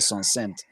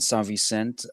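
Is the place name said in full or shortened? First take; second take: shortened; full. First: The name is run together into a short form. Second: The name is said in its full form. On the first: This is how locals usually call it. "we usually say Son Saint" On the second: This is the proper form of the name. "I'll say it the right way"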